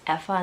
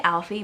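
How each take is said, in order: First: The name sounds like 'Effa'. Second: The name sounds like 'Alfie'. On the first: The speaker calls it right. "I know it's Effa in the books" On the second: The speaker calls it wrong. "I say Alfie, but I always pronounce it wrong"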